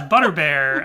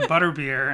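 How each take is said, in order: First: Butterbear ending like "air", punched loud; mispronounced Butterbear. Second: Butterbeer with the last syllable rhyming with "ear"; corrected Butterbeer. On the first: Co-host retells a singer's slip, Butterbear ending in "bear". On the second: Everyone corrects the singer, Butterbeer ending in "beer". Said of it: "and everyone's like". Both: Retold or imitated.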